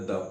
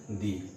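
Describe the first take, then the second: First: The word is said with a short 'uh' vowel. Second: The word is said with a long 'ee' vowel. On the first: The next word begins with a consonant sound. "अगर इस शब्द का उच्चारण consonant से है तो द पढ़ना है" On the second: The next word begins with a vowel sound. "इसका उच्चारण अगर वॉवेल्स हो रहा है तो आप दी पढ़ना है"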